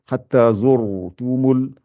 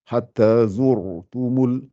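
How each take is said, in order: The two takes are said the same way.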